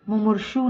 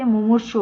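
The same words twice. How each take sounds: First: "मुमूर्षु" ending in long "shoo"; wrong long final u. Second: "मुमूर्षु" ending in short "shu"; correct short final u. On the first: Teacher shows the mistake, long final u in "मुमूर्षु". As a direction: stretch the end of "मुमूर्षु". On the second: Teacher gives the correction, short final u in "मुमूर्षु". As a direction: keep षु quick in "मुमूर्षु". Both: Shown as a demonstration. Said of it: "छोटे ऊ की मात्रा".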